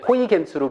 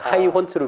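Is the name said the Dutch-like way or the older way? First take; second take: older; Dutch-like. First: The name is said as Hoigens. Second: The name is said as Haihons. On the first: This is how the name used to be taught. "고등학교 때 배울 때 호이겐스로" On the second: This follows the pronunciation of the person's own country. "요새는 하이혼스. 그 나라의 발음을 따라하자"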